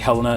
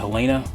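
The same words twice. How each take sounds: First: The name is said the British way. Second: The name is said the non-British way. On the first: "the Brits say Helena" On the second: "instead of Helena"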